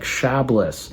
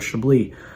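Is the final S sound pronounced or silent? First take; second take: pronounced; silent. First: The final S sound is pronounced. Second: The final S sound is silent. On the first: The speaker calls it wrong. "spelled like Chablis" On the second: The speaker calls it right. "we don't pronounce the S"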